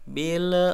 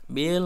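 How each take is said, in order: First: The l sound bounces with an echo. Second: The l flows smoothly into the next word. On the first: The speaker calls it wrong. "hati-hati jangan sampai memantul bil. Nah, jangan begitu" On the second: The speaker calls it right. "tapi langsung bil ghaibi"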